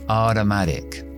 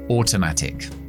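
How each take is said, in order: First: American accent with softened t sounds. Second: British accent with clearly pronounced t sounds. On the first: "Estadounidense, ... vamos a debilitar las dos T's" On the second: "Británico"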